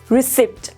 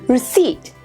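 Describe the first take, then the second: First: A p sound is pronounced in the word. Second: No p sound is pronounced in the word. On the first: The speaker calls it wrong. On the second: The speaker calls it right.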